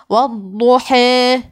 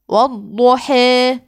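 First: The final long vowel leans strongly toward e. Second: The same.

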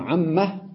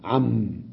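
First: The word ends with an added h sound. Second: The word ends on a silent m. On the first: "وممكن عمه" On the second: "وتقف بالسكون على حرف الميم"

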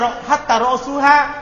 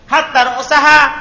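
First: The vowel before -ha is u. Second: The vowel before -ha is a. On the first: Hatta starts a new clause. "kalau jumlah baru baca rosuha" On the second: Hatta works as a conjunction. "huruf atop berarti rosaha"

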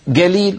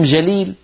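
First: The word begins with a hard g sound. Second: The word begins with a j sound. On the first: "يستعملون الصوت نفسه مقابل الجيم" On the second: "قصدهم جليل"

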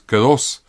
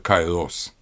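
First: The word is said in the Greek way. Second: The word is said in the Erasmian way. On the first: "что греки называли словом по-гречески, на самом деле" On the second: "у нас обычно произносится на Эразмов манер"

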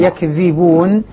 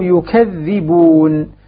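First: First vowel is a; middle consonant is single. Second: First vowel is u; middle consonant is doubled. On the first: "بفتح الياء مع التخفيف" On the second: "ضم الياء وثقل الذال"

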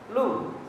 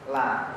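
First: The l is followed by a u vowel. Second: The l is followed by an a vowel. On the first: "jangan antum baca lu gitu" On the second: "Jangan dibaca la"

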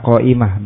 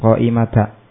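First: The word ends with an 'ah' sound. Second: The word ends with an 'ata' sound. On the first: The speaker calls it right. "ketika dinasubkan dibaca dengan ha qa'imah" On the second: The speaker calls it wrong. "bukan qa'imata"

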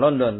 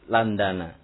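First: The name is said with 'o' vowels. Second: The name is said with 'a' vowels. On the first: The speaker calls it wrong. "bukan London" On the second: The speaker calls it right. "tapi Landana"

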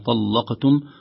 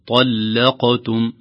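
First: The l sound is heavy and thick. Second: The l sound is light and thin. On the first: The speaker calls it wrong. "تصبح مغلظة" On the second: The speaker calls it right. "الصحيح أن الجمهور يقرأها مرققة هكذا"

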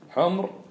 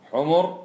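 First: The m has no vowel after it. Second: The m is followed by a short u vowel. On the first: It means red ones, plural of red. "بإسكان الميم" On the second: It means donkeys, plural of donkey. "بضم الميم"

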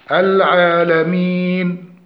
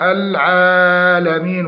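First: The long vowel is held for a normal length. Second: The long vowel is stretched well beyond normal length. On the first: The speaker calls it right. "فنقول الحمد لله رب العالمين" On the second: The speaker calls it wrong. "الزيادة في مد ألف العالمين ... وهذا خطأ"

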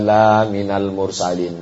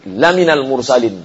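First: The vowel after the first l is long. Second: The vowel after the first l is short. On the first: You are not a messenger. "kalau dibaca panjang" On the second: You are truly one of the messengers. "kalau dibaca lamnya pendek"

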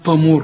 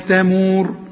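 First: The first consonant is emphatic and thick. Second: The first consonant is plain and thin. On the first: The speaker calls it wrong. "أمال بتقول لي هنا طمور لي بقى؟" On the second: The speaker calls it right. "التاء والميم مرققين"

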